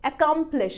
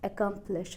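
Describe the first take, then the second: First: Accomplish with a high, long KUM; a-KUM-plish, strong second beat; stress on middle syllable. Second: Accomplish low and soft, no lifted middle; soft, level accomplish without stress; unstressed wrong take. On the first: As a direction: stretch and punch the middle of accomplish. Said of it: "louder और longer बोलना है". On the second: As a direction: say accomplish evenly with no punch on kum. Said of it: "ना कि". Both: Shown as a demonstration.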